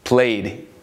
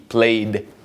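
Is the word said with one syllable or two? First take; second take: one; one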